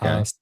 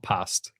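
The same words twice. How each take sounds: First: The vowel is long and drawn out. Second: The vowel is short and flat. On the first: "elongated A" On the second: "not past"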